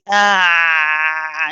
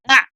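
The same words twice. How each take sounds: First: The sound is held on for long. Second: The sound is cut off very quickly. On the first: "We don't keep it running and say ah and stay on it" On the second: "we don't say ah and just stop all of a sudden"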